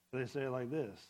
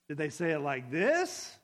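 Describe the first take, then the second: First: Softer, lower take falling flat at the end; now the other tone, letting it drop. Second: Louder take with the question rising at the end; one possible tone. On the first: Reader testing a text's tone, lower falling version. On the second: Reader testing a text's tone, rising question. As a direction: try one tone, lifting the end. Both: Shown as a demonstration. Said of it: "you can't interpret tone".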